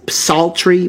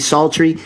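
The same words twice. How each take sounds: First: The initial p is sounded before the s. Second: The initial p is silent, starting with s. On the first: The speaker calls it wrong. "P-S, psaltery" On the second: The speaker calls it right. "but it's really psaltery"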